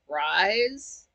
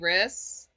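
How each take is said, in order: First: The vowel is a long 'eye' sound. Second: The vowel is a short 'ih' sound. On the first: "I thought it was Jeremy Rise" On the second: "Frank pronounced it like like it's Riss"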